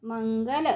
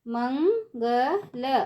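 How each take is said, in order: First: Said in the usual way. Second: Mangal stretched slowly, syllable by syllable; slow syllable drill. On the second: Shown as a demonstration. Teacher drawing out Mangal slowly for children. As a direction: draw out Mangal for the class. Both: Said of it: "ऊंची आवाज़ में कैसे पढ़ेंगे".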